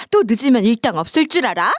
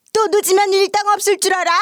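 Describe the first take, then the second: First: Lightly mimicked threat, near usual pitch; quoting mother's threat. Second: High, imperious threat in a mimicked voice; mother-in-law imitation. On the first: Daughter throws mother's inner words back, lightly mimicked. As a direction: quote the mistress's warning with only a hint of her voice. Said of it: "속으로 이랬다며". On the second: Mistress warning her late housemaid, high mimicked scolding. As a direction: threaten like a haughty mistress, pitched way up. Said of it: "시모 목소리와 말투를 똑같이". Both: A narrator's reading.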